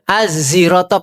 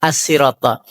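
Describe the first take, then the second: First: The word is said with a z sound. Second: The word is said with a plain s sound. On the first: "pakai za" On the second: "pakai sin biasa"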